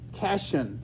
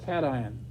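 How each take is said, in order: First: The word is pronounced like the end of vacation. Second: The word is pronounced unlike the end of vacation. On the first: The person has never studied chemistry. "like vacation" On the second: The person has studied chemistry. "if you've been in chemistry"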